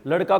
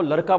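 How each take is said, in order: First: Said in the usual way. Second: लड़का pronounced "laraka". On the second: Retold or imitated. Teacher asking what the habit is, लड़का with r. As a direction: replace ड़ in लड़का with r. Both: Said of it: "ड को क्या बोल रही है".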